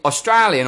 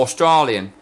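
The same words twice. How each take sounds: First: "Australian" with AY in the middle. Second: "Australian" with a broad AH in the middle. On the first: Host asking guest which is right, Australian with AY. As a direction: say "Australian" as oss-TRAY-lian. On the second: Host asking guest which is right, Australian with AH. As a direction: say "Australian" as oss-TRAH-lian. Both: Shown as a demonstration. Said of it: "is it Australian or Australian".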